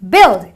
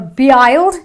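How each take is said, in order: First: The vowel is a short i sound. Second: The vowel is not a short i sound. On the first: The speaker calls it right. "it is build, because the U I produces a short eh sound" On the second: The speaker calls it wrong. "or build"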